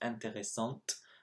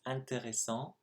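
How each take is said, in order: First: The word ends with an audible t sound. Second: The word ends on a nasal vowel, no t. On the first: The word sounds like its feminine form. The speaker calls it wrong. "which I pronounced intéressante as if it was feminine" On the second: The word is in its masculine form. The speaker calls it right. "for that one it was of course intéressant"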